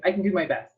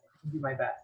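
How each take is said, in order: First: Said in the usual way. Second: "I can do my best" said again much softer; softer echo to herself; quiet repeat. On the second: Shown as a demonstration. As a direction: drop "I can do my best" to a murmur.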